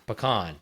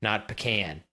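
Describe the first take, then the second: First: "Pecan" with a short "puh" and a long "kahn". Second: "pecan" with "kan" rhyming with can. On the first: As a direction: stress the second syllable of "Pecan", open "ah" vowel. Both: Shown as a demonstration.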